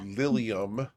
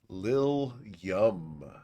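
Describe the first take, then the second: First: The stress is on the first syllable. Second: The stress is on the last syllable. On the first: It is just the character's name. "as opposed to Lilium" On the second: It carries a suggestive double meaning. "the emphasis on the wrong syllable"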